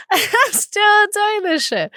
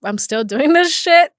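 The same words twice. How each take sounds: First: High, slow mock disbelief; mock amazed. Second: Said in the usual way. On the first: Shown as a demonstration. Host marvels at still running her podcast, in a high, slow amazed voice. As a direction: stretch it out, amazed at herself. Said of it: "repeats the question as a mock exclamation". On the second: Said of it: "repeats it in a new voice".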